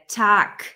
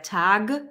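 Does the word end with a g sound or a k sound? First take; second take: k sound; g sound. First: The word ends with a voiceless k sound. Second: The word ends with a voiced g sound. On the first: The speaker calls it right. "it's der Tag. ... When there's a G, it's pronounced like a K" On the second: The speaker calls it wrong. "it's not der Tag"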